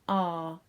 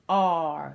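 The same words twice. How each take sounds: First: It is said carefully in a normal voice. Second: It is said in a put-on pirate voice.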